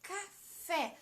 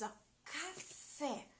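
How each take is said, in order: First: Café at normal speed, fé a bit higher; stressed café. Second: Café said very slowly and softly, fé drawn out; slow stressed café. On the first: Teacher repeating café at normal speed for the class. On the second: Teacher slowing café so children find the strong syllable. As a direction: spell out café syllable by syllable, leaning on fé. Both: Shown as a demonstration. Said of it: "Qual que a gente tá fazendo mais forte?".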